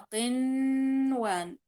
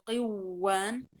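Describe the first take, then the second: First: The n sound is pronounced clearly before w. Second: The n sound is merged into the w. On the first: The speaker calls it right. "فأقرأها قنوان" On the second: The speaker calls it wrong. "لا أقول قوان"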